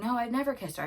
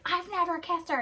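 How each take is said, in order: First: Imitating his first denial, raised pitch; retold denial. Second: High-pitched imitation of an upset man; hammed-up, indignant squeal of denial; upset, dramatic denial. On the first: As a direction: deny it quickly but without fury. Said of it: "And then he's like". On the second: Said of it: "he's getting so upset and, like, dramatic".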